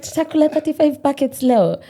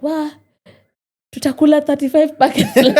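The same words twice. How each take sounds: First: Giggling through the quote; laughing repeat of mom. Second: High, loud and laughing, mimicking mom; mom's laughing exclaim. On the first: Retold or imitated. Retelling mom's words to the interviewer, giggling. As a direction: laugh the line out while retelling. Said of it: "She's like". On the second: Mom teasing her daughter about leftover food, laughing. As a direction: echo mom's amused disbelief in Swahili. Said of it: "so my mom is like".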